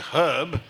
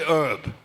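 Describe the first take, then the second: First: It is said with a standard British pronunciation. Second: It is said with an American pronunciation. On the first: "in English, for example, you say herb" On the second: "but the Americans say herb"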